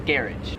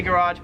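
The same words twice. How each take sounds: First: "garage" as GARR-idge; Australian variant. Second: "garage" as ga-RAHJ; American pronunciation. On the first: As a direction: stress the front of "garage", short ending. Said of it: "here also say garage". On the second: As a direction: stress a long RAHJ in "garage". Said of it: "some people still say garage". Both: Shown as a demonstration.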